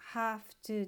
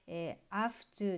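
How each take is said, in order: First: The h sound at the start is pronounced strongly. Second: The h sound at the start is dropped. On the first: "H をですね強く発音しても間違いではない" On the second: "have to のH がですね脱落して"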